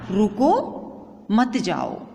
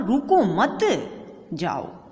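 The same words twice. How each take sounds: First: The pause comes right after 'रुको'. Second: The pause comes right after 'मत'.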